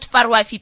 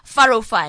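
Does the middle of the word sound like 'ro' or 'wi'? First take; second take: wi; ro. First: The middle of the word sounds like 'wi'. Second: The middle of the word sounds like 'ro'. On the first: The speaker calls it wrong. "I even said it wrong" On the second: The speaker calls it right. "Farofai, not Farwifi, please"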